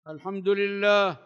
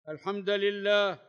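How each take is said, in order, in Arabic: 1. الدال تأخذ الضمة، واللام تأخذ الضمة. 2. الدال تأخذ الفتحة، واللام تأخذ الكسرة. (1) "بضم الدال واللام إتباعا" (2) "بالنصب"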